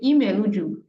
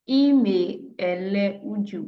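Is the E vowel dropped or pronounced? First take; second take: dropped; pronounced. First: The E vowel is dropped, words run together. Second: The E vowel is pronounced, words kept separate. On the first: This is how fluent speakers say it. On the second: Each word is given in its full form.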